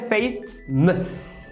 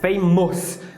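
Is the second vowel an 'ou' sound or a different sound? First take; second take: different; ou sound. First: The second vowel is not an 'ou' sound. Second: The second vowel is an 'ou' sound. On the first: The speaker calls it right. "quando na verdade é famous" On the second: The speaker calls it wrong. "Você vê um O U ali, você quer falar famous"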